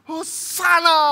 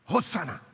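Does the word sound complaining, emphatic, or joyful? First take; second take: joyful; emphatic. First: It is said in a joyful, praising tone. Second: It is said in a firm, emphatic tone. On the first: It is an expression of praise. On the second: It is an expression of affirmation.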